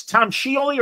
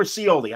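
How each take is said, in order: First: "Scioli" with an SH start, SHEE-oh-lee; pronunciation with SH. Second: "Scioli" with a plain S start, see-OH-lee; pronunciation with S. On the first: Host checking his guest's surname, "Scioli" said SHEE-oh-lee. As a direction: start "Scioli" on a SH sound, three syllables. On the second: Host offering the other guess at a surname, "Scioli" said see-OH-lee. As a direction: start "Scioli" on S, three syllables. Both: Shown as a demonstration. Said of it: "How do I say it".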